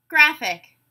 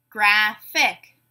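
First: Said in the usual way. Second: "Graphic" split in two, graph-ic; two separate beats on "Graphic", gap between; syllable by syllable. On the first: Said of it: "you tell me the whole word". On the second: Shown as a demonstration. Teacher giving a word to blend, said syllable by syllable. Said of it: "say the syllables in a word".

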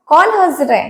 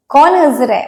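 Both takes have the same delivery.

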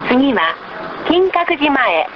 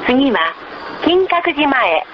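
No difference in how they are said.

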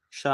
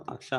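First: క్ష said directly, with no vowel before it; bare syllable sound. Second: అక్ష with a leading short "a"; reading-aloud letter name. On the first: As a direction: start క్ష straight on the "ksh" cluster. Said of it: "దీని ఉచ్చారణ". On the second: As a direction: say అక్ష in two syllables, "ak-sha". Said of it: "చదివేటప్పుడు అక్ష అంటాం". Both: Shown as a demonstration.

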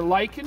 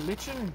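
First: "lichen" said LIKE-en, with a hard k; LIKE-en pronunciation. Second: "lichen" said LITCH-en, with a ch sound; LITCH-en pronunciation. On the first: Instructor giving one option for naming the plant, "lichen" said LIKE-en. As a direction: say "lichen" like the word "liken". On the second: Instructor giving the other option for naming the plant, "lichen" said LITCH-en. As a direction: rhyme "lichen" with kitchen. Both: Shown as a demonstration. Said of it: "depending on how you wanna pronounce it".

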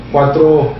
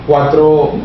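Both takes have the same delivery.

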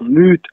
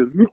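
First: "mute" with a long, held U. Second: "mute" with a short, quick U. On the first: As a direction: stretch the U in "mute". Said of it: "le U est long". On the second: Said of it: "plus logique de dire mute que mute". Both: Shown as a demonstration.

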